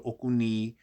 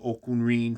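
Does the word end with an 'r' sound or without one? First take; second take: without r; with r. First: The word ends with a 'ni' syllable, no 'r'. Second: The word ends with a clear 'rin' syllable. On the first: This is the later Cuban form. "more Cubanized" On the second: This is the original Yoruba form. "from Yoruba"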